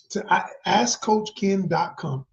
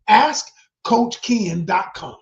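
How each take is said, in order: First: Said in the usual way. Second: Slow, loud, hammered plug; emphatic shout. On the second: Real, not acted. Pushing viewers to visit the site, slow emphatic shout. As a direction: shout the web address slowly.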